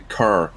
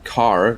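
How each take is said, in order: First: The vowel sounds closer to an 'eh'. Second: The vowel sounds like a plain open 'ah'. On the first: "they'd say car ... Like the A is an E for them" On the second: "instead of saying car"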